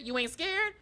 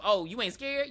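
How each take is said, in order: First: High-pitched sing-song taunt from Pennywise; mock taunting clown. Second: Said in the usual way. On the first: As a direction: repeat it pitched much higher, mocking. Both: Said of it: "talking about some".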